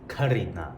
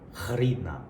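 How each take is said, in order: First: The first sound is an aspirated k stop. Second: The first sound is a raspy throat fricative. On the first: "They'll just pronounce this as the aspirated K" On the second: "the first letter in this word is that Arabic thing"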